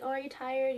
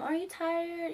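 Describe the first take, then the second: First: Said in the usual way. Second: Put-on high, cooing baby-talk question; lightly babying, raised pitch. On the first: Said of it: "that wasn't talking, like, in a baby way". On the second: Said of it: "like, in a baby way".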